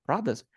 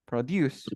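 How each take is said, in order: First: Produce said PROD-uce, second vowel reduced; stress on first syllable. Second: Produce said pro-DUCE, with a full "yoos" sound; stress on final syllable. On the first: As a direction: hit the beginning of Produce. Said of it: "the stress goes first here at the beginning". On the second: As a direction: land on the end of Produce. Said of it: "The stress goes at the end of the word". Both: Shown as a demonstration.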